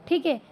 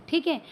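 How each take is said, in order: No difference in how they are said.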